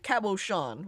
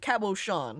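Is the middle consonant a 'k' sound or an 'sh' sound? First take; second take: sh; sh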